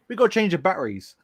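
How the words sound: It is said in a London accent.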